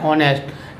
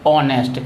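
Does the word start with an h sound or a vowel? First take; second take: h sound; vowel. First: The word begins with an audible h sound. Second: The word begins directly with an o vowel. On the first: "देखो ये हॉनेस्ट लिखा हुआ है" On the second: "लेकिन इसको हम पढ़ते हैं ऑनेस्ट"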